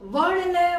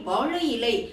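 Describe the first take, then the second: First: It is said fast with syllables run together. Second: It is said slowly with every syllable full.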